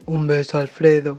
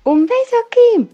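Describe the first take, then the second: First: Low deep sulphur-gas voice. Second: Squeaky high helium voice; high squeaky sign-off. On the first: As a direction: drop way down for the sign-off. Same sign-off in deep voice. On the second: Caller signs off in helium voice. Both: Pretend.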